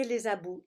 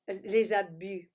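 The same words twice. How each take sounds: First: Abus ending in an OO sound, like "abou"; accented slip. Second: Abus with a tight French u, drawn out slowly; slowly fix abus to end in French u, not ou; self-corrected pronunciation. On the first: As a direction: say the u of abus as French ou. (abus prononcé « abou », avec accent) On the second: (abus corrigé lentement, avec un vrai u français) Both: Real, not acted. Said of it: "pardon, l'accent".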